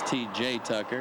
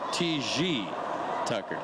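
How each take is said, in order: First: The initials are said with English letter names. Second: The initials are said with French letter names. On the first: "in English, it's" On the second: "in French, you would pronounce it"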